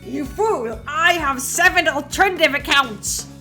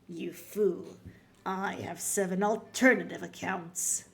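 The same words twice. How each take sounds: First: It is said in an Eggman impression. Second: It is said in his normal voice.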